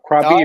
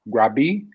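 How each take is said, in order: First: The word begins with a K sound. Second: The word begins with a G sound. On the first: "Krabi or Grabi?" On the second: "It's more of like a G"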